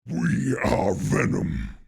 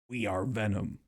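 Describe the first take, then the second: First: The voice is processed to sound slightly lower. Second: The voice is heard without pitch processing.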